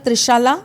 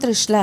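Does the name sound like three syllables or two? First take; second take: three; two. First: The name is said with an extra middle syllable. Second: The name is said with two syllables. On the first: The name's meaning has changed. "आप अपने नाम में एक ए और लगा लीजिए" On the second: This is the original name. "मेरा नाम त्रिशला है"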